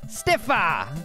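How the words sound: The name is said in an Australian accent. "His accent made it stiffer"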